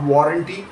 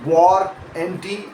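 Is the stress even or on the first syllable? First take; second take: even; first syllable. First: The stress is spread evenly across the word. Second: The stress falls clearly on the first syllable. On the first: The speaker calls it wrong. "not warranty, with equal stress on both parts" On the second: The speaker calls it right. "with the stress uh, landing clearly on the first syllable"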